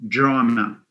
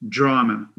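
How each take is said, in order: The two takes are said the same way.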